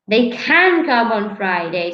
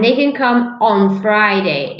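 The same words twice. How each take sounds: First: The stress is on the word can. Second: The stress is on the word Friday. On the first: It is about the possibility. "the stress is on the of the possibility" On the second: It is about a specific day of the week. "If I stress on Friday"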